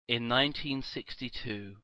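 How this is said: It is said in a dramatic announcer voice. "Now I'm doing it like the, the fucking guy who does the voiceover at the start of the A-Team"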